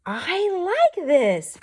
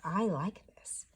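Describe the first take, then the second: First: High, loud and slow with delight; happy quack. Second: Whispered. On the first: Teacher reading Pete's happy line, high and delighted. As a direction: stretch it out gleefully like a happy duckling. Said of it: "Pete quacks". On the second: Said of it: "And he says". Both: Acted.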